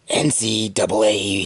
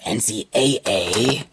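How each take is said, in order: First: The last two letters are said as 'double A'. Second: The last two letters are said separately, 'A A'. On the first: "I prefer pronouncing it N C double A" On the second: "however you pronounce it"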